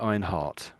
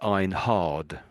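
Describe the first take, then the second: First: The name ends with almost a T sound. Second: The name ends with a clear D sound. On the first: This is how British people would say it. "if a British British person would say it, I think it'd be Einhart. So almost like heart at the end, almost a T" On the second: This is how Americans would say it. "the Americans would say Einhard. So that- they'd make the D sound"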